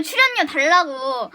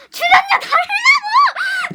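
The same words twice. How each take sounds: First: Said in the usual way. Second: High, slow, loud demand; mock outraged shout. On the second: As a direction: stretch it into a high mock protest yell. Escalated repeat of mock demand.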